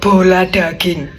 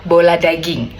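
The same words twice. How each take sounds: First: The consonants are heavy and pressed. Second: The consonants are light and unpressed. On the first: The speaker calls it wrong. "bukan bola daging" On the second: The speaker calls it right. "jangan diteken, jangan ngegas banget"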